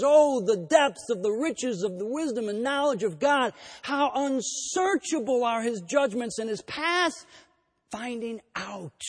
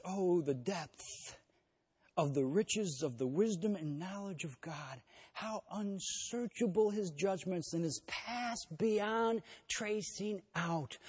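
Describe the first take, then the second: First: Ringing, raised exclamation of awe. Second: Softer, slow reverent reading; hushed awe. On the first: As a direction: proclaim it as a burst of praise. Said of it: "he breaks out into this interjection". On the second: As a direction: linger on each word in quiet wonder. The same verse read again. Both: Retold or imitated.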